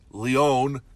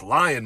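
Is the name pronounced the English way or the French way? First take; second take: French; English. First: The name is given a French pronunciation. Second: The name is given a plain English pronunciation. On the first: This is how the original name is meant to sound. "which is supposed to be pronounced Lyon, because it's a French fella" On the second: This is how the locals actually say it. "Ain't no way rural Iowans are going to say Lyon"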